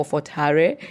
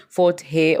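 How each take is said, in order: First: "Hare" in two slow syllables, HAH-reh; alternative pronunciation. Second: "Hare" as one slow syllable, like "hey"; alternative pronunciation. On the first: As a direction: say "Hare" slowly as "ha-re", final e sounded. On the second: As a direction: say "Hare" slowly without the r, "heh". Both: Shown as a demonstration. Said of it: "how you choose to pronounce it".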